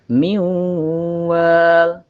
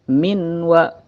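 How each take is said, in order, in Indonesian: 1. Bunyi n melebur ke dalam w yang bersengau dan ditahan. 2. Bunyi n dibaca jelas sebelum w. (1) "dibacanya agak melebur. Miu, miu, ditahan dua sampai tiga harokat" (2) "bukan minwa"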